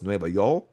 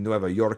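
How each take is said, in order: First: The second word is said with an L sound. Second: The second word is said with an R sound. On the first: "they pronounce the R's like an L, so it's Nueva York" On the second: "meaning Nueva York"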